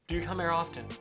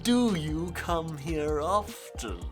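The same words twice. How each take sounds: First: It sounds nervous and scared. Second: It sounds confident and self-assured. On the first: The character is forced into it and afraid. "is terrified of doing so, but is being pushed by another character and has no idea how to do it" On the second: The character wants it and feels sure of themselves. "is very confident about their abilities, and is still very bad at it"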